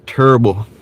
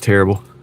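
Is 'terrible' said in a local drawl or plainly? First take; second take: local drawl; plainly. First: Terrible is said in a local drawl, rhyming with gerbil. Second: Terrible is said in a plain, standard way.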